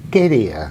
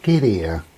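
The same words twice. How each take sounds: First: Playful come-here shout, pushed harder; cheeky call. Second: Playful come-here call, held back; cheeky call. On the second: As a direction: summon him over half in jest. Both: Retold or imitated. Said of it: "I like to be cheeky".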